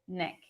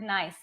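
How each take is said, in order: First: The vowel sounds short, like in 'Nick'. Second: The vowel sounds like the 'eye' in 'nice'.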